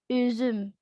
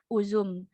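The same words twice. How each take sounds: First: The vowels are a rounded front ü sound. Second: The vowels are a plain back u sound.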